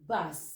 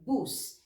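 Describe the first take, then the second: First: The vowel is the English-style sound. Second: The vowel is the Filipino u sound. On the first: The speaker calls it wrong. "we don't read it as bus" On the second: The speaker calls it right. "this one is with the u, so it's bus"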